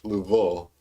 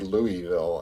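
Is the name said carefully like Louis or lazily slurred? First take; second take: lazy; careful. First: The name is said lazily, with its sounds slurred together. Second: The name is said carefully, with Louis fully pronounced. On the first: This is how locals actually say it. The speaker calls it wrong. "it just comes out lazily like Louisville" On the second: This is how the name should be said after the king. The speaker calls it right. "It should be however you pronounce King Louis"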